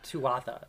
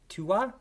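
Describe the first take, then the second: First: The word has a 'th' sound. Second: The word has no 'th' sound. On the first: The speaker calls it wrong. "So not Tuatha" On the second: The speaker calls it right. "It's supposed to be like Tuwa"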